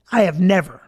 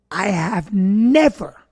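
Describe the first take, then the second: First: Said in the usual way. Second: "never" stretched out slowly and leaned on hard; heavy, lingering emphasis on "never"; stress on never. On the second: Real, not acted. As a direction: draw out the word "never" for emphasis. Repeats the words for emphasis.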